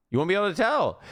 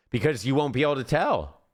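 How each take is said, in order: First: "tell" stressed and pitched higher than usual; emphatic repeat. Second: Said in the usual way. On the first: Real, not acted. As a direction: lean hard on "You won't be able to tell". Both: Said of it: "repeats it with emphasis".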